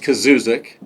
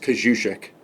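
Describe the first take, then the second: First: The surname is said with a local American pronunciation. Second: The surname is said with a Polish pronunciation. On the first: "So the local one's" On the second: "if you're a true Polak, it's"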